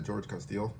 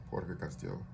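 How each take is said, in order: First: Said in the usual way. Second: "Jorge Castillo" said the Spanish way; Spanish pronunciation. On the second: Real, not acted. Same name given in Spanish form.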